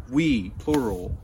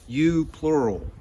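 First: "we" lightly stressed at normal pace. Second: "you" appuyé, plus lent, plus haut et plus fort; stress on YOU. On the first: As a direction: gently lean on "we" to include everyone. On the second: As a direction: insist on "you" as a plural, slowly. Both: Shown as a demonstration.

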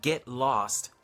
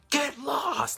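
First: Said in the usual way. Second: High-pitched mock shout; retold guard's yell, pitched high. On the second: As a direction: bark it at the man behind. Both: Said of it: "Like, shouted".

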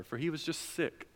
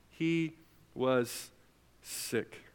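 First: Said in the usual way. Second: He... was... sick, each word set apart and fading to a whisper on sick; slow paused emphasis. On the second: Shown as a demonstration. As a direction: drop to a breathy hush, pausing before each word.

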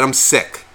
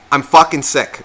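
First: Said in the usual way. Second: A touch of annoyance on "fucking sick"; half-hearted grumpy snap; mildly irritated, imagined retort. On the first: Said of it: "I said". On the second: Retold or imitated. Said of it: "I didn't say".

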